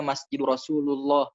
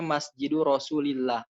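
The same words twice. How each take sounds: First: "Rasulullah" said with u, as people often misread it; wrong reading. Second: "Rasulillah" said with a clear i after "Rasul"; correct reading. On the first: Teacher imitating the common wrong "Rasulullah". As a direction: show the common mistake, "Rasulullah" with u. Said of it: "Kebanyakan di sini salah". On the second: Teacher giving the correct "Rasulillah" with i. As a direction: stress the genitive i in "Rasulillah". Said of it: "Padahal harusnya". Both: Shown as a demonstration.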